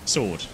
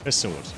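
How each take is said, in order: First: No H sound is heard before the name. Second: An H sound is heard before the name. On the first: The speaker calls it right. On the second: The speaker calls it wrong.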